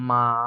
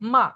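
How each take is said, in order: First: It is said with the third tone. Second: It is said with the fourth tone.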